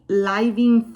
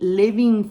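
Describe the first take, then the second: First: The first vowel is a long 'eye' sound. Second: The first vowel is a short 'ih' sound. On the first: The speaker calls it wrong. "No, it doesn't sound right" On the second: The speaker calls it right. "instead of the long I, I say li"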